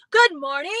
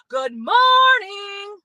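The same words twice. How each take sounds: First: A short, brisk "Good morning" said in about half a second; quick greeting. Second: "Good morning" stretched very slow, higher and loud, almost a shout; long drawn-out greeting. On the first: Showing viewers how little time a greeting takes, quick and brisk. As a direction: snap it off fast. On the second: Showing viewers a long greeting, drawn out and called loud. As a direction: drag every sound of "morning" out like a call. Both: Shown as a demonstration. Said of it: "Let's make a long one".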